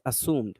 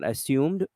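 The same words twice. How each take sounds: First: No y sound comes before the vowel. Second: A y sound comes before the vowel. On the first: The speaker calls it right. "There's no y sound" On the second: The speaker calls it wrong. "It's not assumed"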